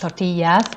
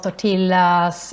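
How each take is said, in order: First: It is pronounced with Spanish sounds. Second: It is pronounced with Swedish sounds. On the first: "some people know might know that it's pronounced tortillas" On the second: "that's typical Swedish pronunciation"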